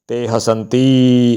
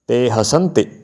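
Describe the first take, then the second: First: The final i vowel is long and drawn out. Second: The final i vowel is short and clipped. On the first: The speaker calls it wrong. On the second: The speaker calls it right.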